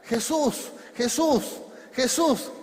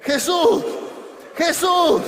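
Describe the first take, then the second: First: Raised, higher calls on the name; repeated cries, pitched up and pushed; calling out. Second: High, very loud shout of the name; full shout. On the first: Acted. Preacher as Bartimeo who began to shout to Jesus, calling out. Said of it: "Bartimeo empezó a gritar". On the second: Shown as a demonstration. Preacher leading the congregation to shout with him, shouting. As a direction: shout it out for a crowd to join. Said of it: "Grite conmigo".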